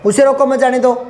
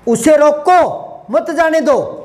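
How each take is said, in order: First: The whole phrase runs on with no pause. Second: The pause comes right after 'roko'. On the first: It is unclear whether he should stay or go. "मैं यहां रुका ही नहीं था, गाड़ी सी चला दी" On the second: Keep him here; do not let him go. "बिठाना है"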